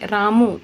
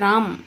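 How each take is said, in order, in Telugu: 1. ఈ పేరు అచ్చుతో అంతమవుతుంది. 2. ఈ పేరు హల్లుతో అంతమవుతుంది. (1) "ము అంటే ఊతో అంతం" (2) "కానీ ఇక్కడ"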